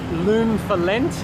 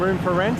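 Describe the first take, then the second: First: Both words start with an L sound. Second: Both words start with an R sound. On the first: "they tend to interchange R's and L's" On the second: "meaning room for rent"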